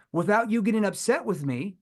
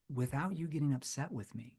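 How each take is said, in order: First: Said in the usual way. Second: Soft, leaning in, much softer; gently hesitant and caring; concerned tone. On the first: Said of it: "communicates something different". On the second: Shown as a demonstration. Salesman leaning in to the prospect, soft and concerned. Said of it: "A concerned tone".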